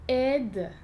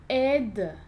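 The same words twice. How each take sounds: Both takes have the same delivery.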